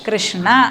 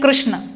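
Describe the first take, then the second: First: The word ends with a short a vowel. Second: The word ends on the n sound, no final vowel. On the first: "പക്ഷേ സംസ്കൃതത്തിൽ" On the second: "ഹിന്ദിയിൽ ഉച്ചരിക്കുകയാണെങ്കിൽ"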